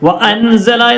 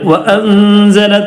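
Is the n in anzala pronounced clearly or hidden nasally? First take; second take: clear; hidden. First: The n sound is pronounced fully and clearly. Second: The n sound is hidden as a nasal hum. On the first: The speaker calls it wrong. "വ്യക്തമാക്കി പറയരുത്" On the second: The speaker calls it right. "ഇൻ അവിടെ ഇഖ്ഫ ചെയ്യണം"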